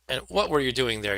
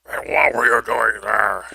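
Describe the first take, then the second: First: It is spoken in a normal voice. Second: It is spoken in a low growl. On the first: The speaker calls it wrong. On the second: The speaker calls it right.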